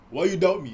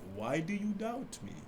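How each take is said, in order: First: It sounds angry and accusing. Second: It sounds gently curious, not accusing.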